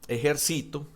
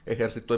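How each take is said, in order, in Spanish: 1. El acento está en la tercera sílaba. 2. El acento está en la última sílaba. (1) "que la tiene en la, en la I, en el sí" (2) "Ejercitó en pasado"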